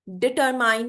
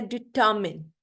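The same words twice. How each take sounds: First: डिटरमाइन ending like mine, r sounded; wrong pronunciation. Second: डिटरमिन as di-ta-min, silent r; correct pronunciation. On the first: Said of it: "डिटरमाइन नहीं होता". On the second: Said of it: "ये होता है डिटरमिन". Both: Shown as a demonstration.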